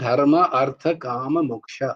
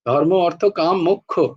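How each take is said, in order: First: The words use Sanskrit-style pronunciation. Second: The words use Bengali-style pronunciation. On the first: This is how it is said in Sanskrit. "সংস্কৃতে বলো, তাহলে হবে" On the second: This is how it is said in Bengali. "বাংলায় যখন বলবে তখন কিন্তু মোক্ষই হবে"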